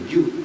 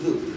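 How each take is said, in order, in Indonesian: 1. Bibir dirapatkan, menghasilkan bunyi 'j'. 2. Lidah berada di antara gigi, bunyi 'th' yang lembut. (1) "sampai dikempit bibirnya jadi ju" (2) "Zalnya digigit"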